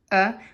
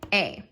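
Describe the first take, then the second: First: The vowel is a short, weak 'uh' sound. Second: The vowel is a long 'ay' sound. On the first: "a lot of us say uh uh, but that's not very phonetic" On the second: "A said a at the end of the syllable"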